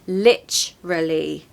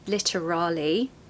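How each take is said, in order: First: The word has a CH sound after 'li'. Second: The word has a clear T sound after 'li'. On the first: The speaker calls it right. "It's more of a C H sound" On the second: The speaker calls it wrong. "So don't say lit, okay?"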